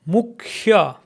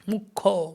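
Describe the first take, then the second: First: The ya glide after kh is sounded. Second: The ya glide is dropped, ending in o. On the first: It follows the written form. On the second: It is the everyday spoken Bengali form.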